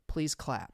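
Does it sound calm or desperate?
calm. It is said without much desperation.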